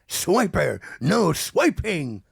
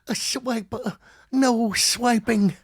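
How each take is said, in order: First: It is said in Tigger's voice. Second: It is said in Darkwing's voice.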